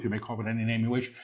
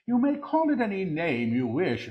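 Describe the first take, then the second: First: Rapid preview. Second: Higher, deliberate declaration; lifted proclamation. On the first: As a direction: rattle it off lightly before proclaiming it. Quick soft take before repeating aloud. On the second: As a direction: proclaim it in a raised pitch. Same words repeated in full voice. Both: Real, not acted.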